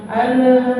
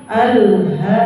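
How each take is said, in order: First: "alha" with the l bounced, higher pitch. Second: "alha" with the l held still before h; clean unbounced l. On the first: Teacher showing the forbidden bounce on lam. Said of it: "alif lam juga nggak boleh pantul". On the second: Teacher showing correct lam, no bounce. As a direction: go straight from l to h in "alha". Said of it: "Jangan alha". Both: Shown as a demonstration.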